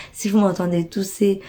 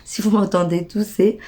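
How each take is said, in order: Both takes have the same delivery.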